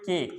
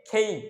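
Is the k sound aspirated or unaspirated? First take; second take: unaspirated; aspirated. First: The k is unaspirated with a plain vowel. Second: The k is aspirated with a gliding vowel. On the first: The speaker calls it wrong. "আমরা উচ্চারণ করি কে, but এটাও ভুল" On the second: The speaker calls it right. "এটার উচ্চারণ হচ্ছে খেই"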